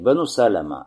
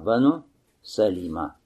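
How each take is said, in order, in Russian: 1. Гласный после Л — не 'i'. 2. Гласный после Л — 'i'. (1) "не Бену Салима" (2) "лям здесь с касрой"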